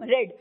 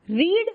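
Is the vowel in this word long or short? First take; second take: short; long. First: The word has a short vowel, like 'red'. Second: The word has a long vowel, like 'reed'. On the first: It refers to the past tense. "Past tense में उसको pronounce करते हैं रेड" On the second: It refers to the present tense. "we say read in the present tense"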